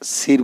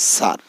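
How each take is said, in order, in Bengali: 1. স্বরধ্বনিটি 'ee'-র মতো শোনায়। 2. স্বরধ্বনিটি 'ah'-র মতো শোনায়। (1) "আমরা সির বলতে পারি না" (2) "অর্থাৎ এস আই আর সার"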